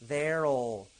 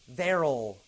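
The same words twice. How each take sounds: Both takes have the same delivery.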